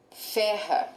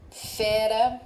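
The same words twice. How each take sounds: First: Ferra with a strong throaty RR; RR forte. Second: Fera with a light tapped R; R simples. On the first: ("ferra" com RR forte, aspirado) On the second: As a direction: tap the R in fera once. ("fera" com R brando, vibrado leve) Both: Shown as a demonstration. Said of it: "Acrescente a letra R".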